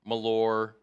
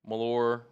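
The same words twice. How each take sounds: Both takes have the same delivery.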